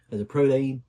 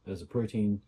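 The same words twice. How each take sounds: First: Louder, higher mock Australian on "protein"; badly faked Australian twang; terrible Australian accent. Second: Said in the usual way. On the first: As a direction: put on a bad Australian accent, punching it out. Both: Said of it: "that's a terrible Australian accent".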